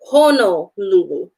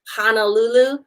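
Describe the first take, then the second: First: The first two vowels sound like 'o'. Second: The first two vowels sound like 'a'. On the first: The speaker calls it right. "It's pronounced Honolulu" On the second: The speaker calls it wrong. "you hear people saying like Honolulu"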